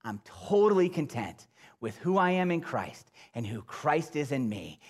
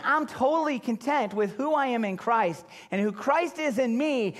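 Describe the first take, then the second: First: Said in the usual way. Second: Higher, brighter quoted claim; quoted self-talk, pitched up; raised quote voice. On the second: Shown as a demonstration. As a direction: lift it as someone else's words. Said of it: "and say".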